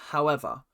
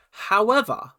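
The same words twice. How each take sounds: First: Said in the usual way. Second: High, drawn-out HOWEVER with a falling end; emphatic however. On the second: Shown as a demonstration. Vlogger correcting herself with a dramatic however. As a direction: stress the first However high.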